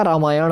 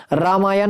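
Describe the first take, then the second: First: "रामायण" lower, ending in retroflex ṇ. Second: "रामायण" ending in plain n; dental n. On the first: Teacher giving students the correction, रामायण with retroflex ṇ. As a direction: curl the tongue back on the end of रामायण. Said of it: "रामायण होता है". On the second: Teacher showing students the mistake, रामायण ending in plain n. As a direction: say रामायण as "raamaayan". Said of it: "और रामायण नहीं होता". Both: Shown as a demonstration.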